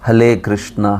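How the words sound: The first word is said with an L sound.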